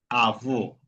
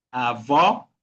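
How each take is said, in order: First: "avó" with a closed, falling final o; inward closed vowel. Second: "avó" with an open, rising final o; outward open vowel. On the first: Teacher showing the other accent, closed final vowel on "avó". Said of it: "otra cosa es decir avó". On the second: Teacher explaining the acute accent, open final vowel on "avó". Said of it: "una fuerza de voz para afuera". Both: Shown as a demonstration.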